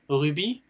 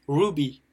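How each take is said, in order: First: Said in the usual way. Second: Ruby said as "roo-bee", falling tone; English pronunciation. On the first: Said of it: "ça s'écrit avec un Y". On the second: Shown as a demonstration. Teacher contrasts it with French rubis, English pronunciation of ruby. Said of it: "le mieux phonétiquement".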